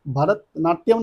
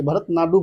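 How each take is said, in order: First: Said in the usual way. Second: भरतनाट्यम said as bharat-nadu, ending in nadu instead of natyam; mnemonic pronunciation. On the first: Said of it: "भरतनाट्यम नहीं बोलेंगे". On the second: Shown as a demonstration. Teacher shows students the memory trick, saying भरतनाट्यम as bharat-nadu. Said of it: "भरतनाट्यम नहीं बोलेंगे, भरतनाट्यम बोलेंगे".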